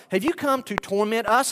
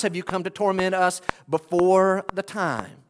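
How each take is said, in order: First: Said in the usual way. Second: "before the time" added with weight; weight on the closing words "before the time"; stress on the question. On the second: Shown as a demonstration. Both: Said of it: "notice the second part of the question".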